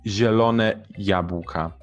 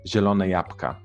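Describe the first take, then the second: First: Every sound is pronounced fully and carefully. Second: Some sounds are reduced in a relaxed way.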